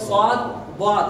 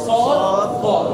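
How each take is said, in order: First: The letters are said with a thin, light vowel. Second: The letters are said with a heavy, thick sound. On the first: The speaker calls it wrong. "এরকম আকার উচ্চারণ হবে না" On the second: The speaker calls it right. "মোটা হরফ"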